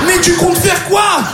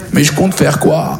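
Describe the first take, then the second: First: High, drawn-out incredulous question; mock alarmed question. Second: Deflated question. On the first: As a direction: ask it high and stretched, hammed-up. Acts friend's reaction on phone. (question aiguë, faussement affolée) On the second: Acted. Own reply echoing friend's question.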